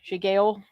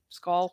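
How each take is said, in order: First: It is said with a sh sound and two syllables. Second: It is said as one syllable, like skull. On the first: The speaker calls it wrong. "not sh- sh- shigale" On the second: The speaker calls it right. "It's skull"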